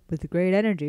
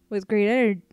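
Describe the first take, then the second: First: It is said in a put-on man's voice. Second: It is said in the reader's normal voice.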